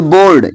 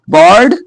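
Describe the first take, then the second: First: "बोर्ड" with a rounded long "o"; OA as closed O. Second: "बॉर्ड" with an open "aw" vowel. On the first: Teacher giving the preferred option, "बोर्ड" with long "o". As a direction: close the vowel of "बोर्ड" to a pure "o". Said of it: "इसे आप ओ का ही sound निकालो". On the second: Teacher giving first option, "बॉर्ड" with open "aw". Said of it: "ओए मिल जाए तो अ बोलेंगे". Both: Shown as a demonstration.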